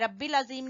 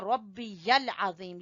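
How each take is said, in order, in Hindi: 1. यह 'rabbil' की तरह बोला जाता है, 'y' की आवाज़ के बिना। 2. यह 'rabbi yal' की तरह बोला जाता है, साफ़ 'y' के साथ। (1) "यहां भी रब्बिल अजीम नहीं कहना" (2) "यहां भी या आपने बोलनी है"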